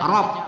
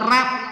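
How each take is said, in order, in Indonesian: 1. Vokalnya membulat dan lebih gelap, bunyinya 'o'. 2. Vokalnya terbuka, tidak membulat, bunyinya 'ah'. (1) "kita baca rob" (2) "tidak pula rab ya, salah"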